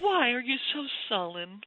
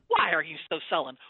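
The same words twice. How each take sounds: First: The question sounds gentle and loving. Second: The question sounds irritated and impatient. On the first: The speaker is caring and concerned. The speaker calls it wrong. "I have tried to read that in a gentle, loving" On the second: The speaker is annoyed, not concerned. The speaker calls it right. "You can hear her attitude"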